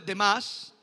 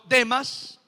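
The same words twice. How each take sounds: First: The stress falls on the last syllable. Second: The stress falls on the first syllable. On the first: It would be the common word meaning the rest. The speaker calls it wrong. "no está hablando de Demas" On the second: It is the name of a person. The speaker calls it right. "sino Demas. En otras versiones tiene una tilde. Este es el nombre de una persona"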